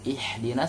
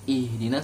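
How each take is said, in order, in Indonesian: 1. H-nya keras, dari tenggorokan, tertahan. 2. H-nya lembut, berhembus ringan. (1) "kalau kita baca pakai ha" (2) "ketika kita baca ih itu ha"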